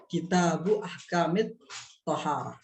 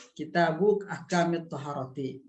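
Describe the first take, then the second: First: Slow reading, Tohar without the final -ti; stopped final ending. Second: Toharoti with final -ti sounded; full case ending. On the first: Teacher modelling the phrase, slow, ending cut at "Tohar". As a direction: stop on "Tohar", dropping the case ending. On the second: Teacher modelling the phrase, "Toharoti" with full -ti ending. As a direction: read "Toharoti" out to its last i. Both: Shown as a demonstration.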